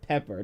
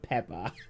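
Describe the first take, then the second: First: The final r is pronounced clearly. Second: The final r is dropped, ending in ah. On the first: The speaker calls it right. "it's Pepper" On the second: The speaker calls it wrong. "not Peppa"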